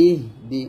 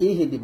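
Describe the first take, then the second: First: ইহ দি with breath held on a vowelless H; two-syllable "ih-di" for ইহ দি; correct silent H. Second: ইহ দি with a vowel slipped in after H; H not stopped in ইহ দি; wrong version. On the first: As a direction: stop on the H of ইহ, then say দি. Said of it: "বলবেন". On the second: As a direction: say ইহ দি as "ihi-di". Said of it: "বলবেন না". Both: Shown as a demonstration.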